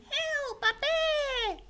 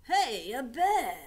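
First: High, shrieking cry for help; mock bushwalker scream. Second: Loud excited call of a bear; tourist calling out. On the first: Scared bushwalker screaming at the koala, very high. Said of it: "makes bushwalkers scream". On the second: Acted. Tourist spotting the koala, calling out excitedly. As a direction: shout it like a delighted tourist.

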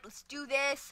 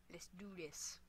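First: Said in the usual way. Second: Low, very soft whispered pep talk; hushed whisper. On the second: Real, not acted. Player psyching up before a round, hushed whisper. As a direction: whisper it under your breath.

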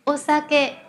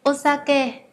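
The two takes are said the same way.

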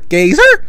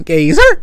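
First: Much higher, loud questioning call; calling louder. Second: Loud questioning call of a name. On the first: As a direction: call the name again, way up high. Calling out a name again. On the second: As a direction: shout the name like you're looking around for him. Calling out a name. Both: Real, not acted.

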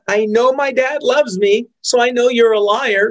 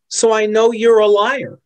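First: Put-on a child standing up to a liar, mildly raised; a kid repeating it with more force; defiant kid. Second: Said in the usual way. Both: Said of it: "My kid could say".

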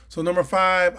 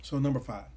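First: "So number five" said again, louder and more forceful; louder restart. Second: Said in the usual way. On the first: Shown as a demonstration. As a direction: relaunch the point with punch.

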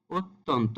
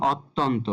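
First: "অত্যন্ত" starting with closed ও; সঠিক উচ্চারণ. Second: "অত্যন্ত" starting with open অ; ভুল উচ্চারণ. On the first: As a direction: begin "অত্যন্ত" on a rounded o. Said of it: "ও দিয়ে শুরু হবে". ("অত্যন্ত"-র শুরুতে ও ধ্বনি) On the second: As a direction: begin "অত্যন্ত" on aw, not o. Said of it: "এটার সঠিক উচ্চারণ হবে". ("অত্যন্ত"-র শুরুতে খোলা অ) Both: Shown as a demonstration.

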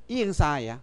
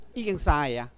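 Both takes have the same delivery.

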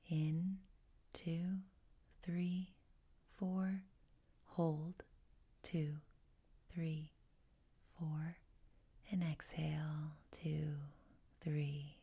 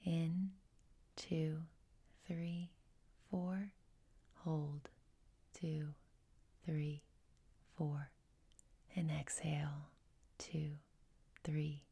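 Both takes have the same delivery.

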